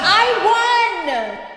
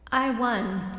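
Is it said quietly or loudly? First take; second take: loudly; quietly. First: It is yelled loudly. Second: It is said quietly, without force.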